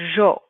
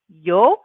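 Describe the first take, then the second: First: It begins with a zh sound. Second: It begins with a y sound. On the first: "they actually pronounce it like a zh sound" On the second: "like a y sound"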